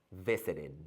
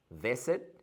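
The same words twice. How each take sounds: First: Visited said softly, -ed as its own syllable; extra syllable. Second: Said in the usual way. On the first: Shown as a demonstration. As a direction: sound out vi-si-ted. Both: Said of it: "extra syllable".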